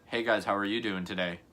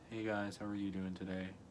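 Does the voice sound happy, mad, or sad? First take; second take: mad; sad. First: The voice sounds mad and annoyed. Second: The voice sounds sad and low.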